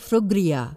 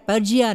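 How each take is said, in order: First: The name starts with a 'fri' sound. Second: The name starts with a 'pur' sound. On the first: The speaker calls it right. "ఫ్రిజ్ గురించి అనుకో" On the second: The speaker calls it wrong. "నేను దాన్ని పర్జియా అనేదాన్ని"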